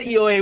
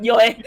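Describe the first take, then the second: First: Short Scottish "Eoi" with a rolled vowel; Scottish accent. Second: Scottish "Yoi", said louder; Scottish accent. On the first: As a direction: answer yes the Scottish way, "Eoi". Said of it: "I said a Psalm one word in a Scottish accent". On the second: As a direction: correct the Scottish yes to "Yoi". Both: Retold or imitated.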